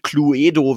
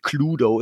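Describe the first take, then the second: First: The word is pronounced the German way. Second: The word is pronounced the English way. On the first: The speaker calls it wrong. "wie es auf Deutsch heißt" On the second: The speaker calls it right. "Das heißt natürlich Cluedo"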